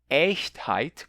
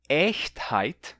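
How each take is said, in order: No difference in how they are said.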